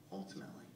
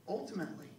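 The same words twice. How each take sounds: First: Ultimately whispered low and breathless. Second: Said in the usual way. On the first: Shown as a demonstration. Comedian closing his set, whispering ultimately for weight. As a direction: drop ultimately to a hushed aside. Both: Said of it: "word repeated differently".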